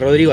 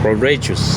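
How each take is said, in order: First: The name is said quickly with native pronunciation. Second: The name is distorted, as by foreign speakers. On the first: This is how the speaker normally says his own name. "así rápido, como acá normal" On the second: This is how people abroad said the name. "me dicen el nombre como me lo decían allá"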